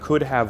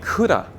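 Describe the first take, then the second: First: The word 'have' is said fully and separately. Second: The 'have' shrinks to 'a' joined onto 'could'.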